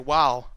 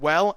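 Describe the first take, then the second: First: The word is drawn out with a southern drawl. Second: The word is said plainly, without a drawl. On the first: "I'm getting a sort of southern drawl" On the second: "instead of saying like well"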